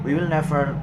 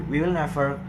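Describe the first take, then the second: No difference in how they are said.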